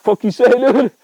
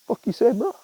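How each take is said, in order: First: Higher and louder, the rooster losing it; angry rooster shout. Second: Higher voice, a bristling bird picking a fight; tough-guy rooster. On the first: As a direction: yell it like a bird about to attack. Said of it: "He's like". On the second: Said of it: "he's just like". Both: Pretend.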